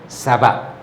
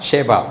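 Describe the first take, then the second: First: The name begins with an s sound. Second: The name begins with an sh sound. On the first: This is the Arabic form of the name. "we pronounce it according to the Arabic pronunciation" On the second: This is the English form of the name. "they call it in English uh, Sheba"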